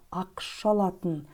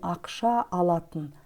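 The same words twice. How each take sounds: First: The final vowel of the first word drops. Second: Both a vowels are pronounced separately. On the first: The speaker calls it right. "В слове ақша последний звук, гласный звук а отпадает" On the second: The speaker calls it wrong. "не ақша алатын"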